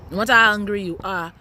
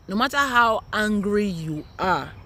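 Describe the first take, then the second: First: Repeated with a louder push. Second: Each word drawn out slowly; slow, deliberate. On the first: Mom repeating her warning to viewers, louder. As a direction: hammer the warning home, louder. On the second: Mom warning her viewers, slow and deliberate. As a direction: spell it out slowly so it sinks in. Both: Shown as a demonstration.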